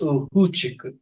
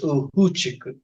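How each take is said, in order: First: The second consonant is an H sound. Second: The second consonant is an H sound.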